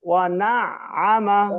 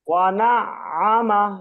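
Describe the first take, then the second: Both takes have the same delivery.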